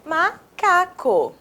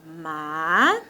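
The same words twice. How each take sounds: First: Higher, slow "Macaco" in one go; whole word, slowly. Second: Soft, low, stretched MA, CA, CO with long gaps; "Ma... ca... co", each piece rising and held; syllable by syllable. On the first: Teacher reading back the written word, whole word slowly. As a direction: say MACACO joined, every syllable measured. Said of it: "qual é a palavra". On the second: Teacher writing the word for pupils, syllable by syllable. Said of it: "Então vamos escrever". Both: Shown as a demonstration.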